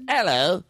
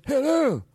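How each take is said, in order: First: Cockney hello with rising end. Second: High, falling groggy Cockney hello. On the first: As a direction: give the ordinary Cockney greeting. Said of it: "if you take the". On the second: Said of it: "then you bring it down to Cockney". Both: Shown as a demonstration.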